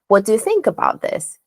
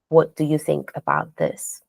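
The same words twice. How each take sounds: First: The pitch rises at the end. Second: The pitch stays flat to the end. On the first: The speaker calls it right. "when we ask a question, the intonation goes up" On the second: The speaker calls it wrong. "their intonation is flat"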